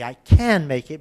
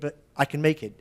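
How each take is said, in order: First: The word can is full and stressed. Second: The word can is weak and unstressed. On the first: "you could say" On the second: "If you don't stress it, the can becomes can"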